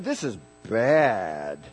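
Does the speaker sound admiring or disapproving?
disapproving. It sounds disapproving and negative. The thing is bad. "then it's not good. It's bad"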